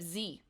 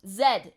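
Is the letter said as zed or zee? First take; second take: zee; zed. First: The letter is said as zee. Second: The letter is said as zed.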